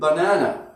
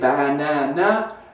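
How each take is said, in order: First: The unstressed vowels are reduced to schwa. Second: The unstressed vowels are pronounced as full vowels. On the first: The speaker calls it right. "it's like banana" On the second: The speaker calls it wrong. "We don't say banana"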